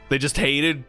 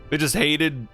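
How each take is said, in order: Both takes have the same delivery.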